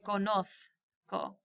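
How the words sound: The z is pronounced like a th sound. "In Spain, they'd say conozco. It's pronounced like a th"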